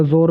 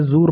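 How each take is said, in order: First: जोर with a long o; o vowel. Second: जूर with a long oo; long oo vowel. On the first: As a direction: say जोर as "zor". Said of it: "या जोर भी पढ़ देते हैं". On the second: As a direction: say जूर as "zoor". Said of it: "अभी ये जूर पढ़ा जाएगा". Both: Shown as a demonstration.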